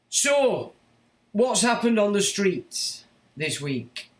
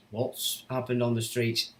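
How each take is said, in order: First: Higher, slow, drawn-out questioning on "happened"; raised question. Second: Said in the usual way. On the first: Acted. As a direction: stretch "happened" high and slow. Rhetorical question to viewers.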